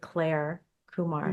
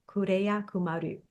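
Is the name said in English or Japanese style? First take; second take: English; Japanese. First: The name is said in English style. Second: The name is said in Japanese style.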